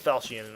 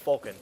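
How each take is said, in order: First: The word is said like 'fal-shun'. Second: The word is said like 'falcon'. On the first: The speaker calls it wrong. "I was saying Falchion all those other times before" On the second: The speaker calls it right. "but it's pronounced Falcon"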